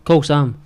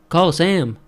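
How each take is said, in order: First: It is said in a Scottish accent. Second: It is said in an American accent.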